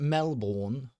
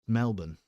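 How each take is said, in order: First: The name is said like a confused Englishman. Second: The name is said in the local way. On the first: The speaker calls it wrong. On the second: The speaker calls it right.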